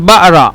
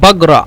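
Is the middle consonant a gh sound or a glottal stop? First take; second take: glottal stop; gh sound. First: The middle consonant is a glottal stop. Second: The middle consonant is a throaty gh sound. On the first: "হামজা" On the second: "গয়েন"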